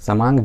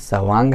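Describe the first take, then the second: First: The second consonant is an m sound. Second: The second consonant is a v sound. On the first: The speaker calls it wrong. "गलती से लोग उच्चारण समांग करते हैं, समांग जो कि गलत है" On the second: The speaker calls it right. "ये सवांग है, अर्थात स्व अंग"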